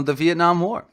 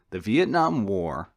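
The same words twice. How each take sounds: First: Vietnam War called out higher and louder, rising; eureka. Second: Said in the usual way. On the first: Real, not acted. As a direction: blurt the example as it comes to you. Hits on example after pause.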